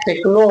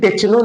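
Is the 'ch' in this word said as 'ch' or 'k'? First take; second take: k; ch. First: The consonant is said as a 'k' sound. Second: The consonant is said as a 'ch' sound. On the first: The speaker calls it right. "टेक्नो होता है" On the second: The speaker calls it wrong. "टेक्नो नहीं होता है"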